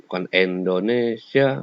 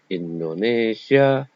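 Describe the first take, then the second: First: Indonesia said like Endonesia; slow down and start Indonesia with an E; mispronounced with an E; wrong pronunciation. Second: Slow Indonesia with a crisp I; clear Indonesia. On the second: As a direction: draw out Indonesia with a clean I at the start. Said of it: "harus jelas". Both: Shown as a demonstration.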